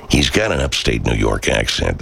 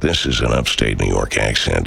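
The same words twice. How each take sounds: First: Said in the usual way. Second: A light upstate New York accent, a bit lower. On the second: Shown as a demonstration.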